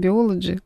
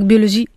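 First: The word is said with a Russian accent. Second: The word is said with a French accent. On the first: "я бы по-русски бы сказала" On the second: "я учила французский язык, читаю как"

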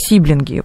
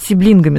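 First: The stress is on the first syllable. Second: The stress is on the second syllable. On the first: "ударение стоит на первом слоге" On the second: "я их люблю называть сиблингами с ударением на второй слог"

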